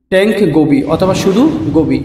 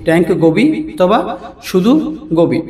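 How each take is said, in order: First: Said in the usual way. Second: tank Gobi অথবা শুধু Gobi split word by word with pauses; slow repeat. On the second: Shown as a demonstration. Teacher repeating the English fish name for viewers, word by word. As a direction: repeat it slowly so learners can follow.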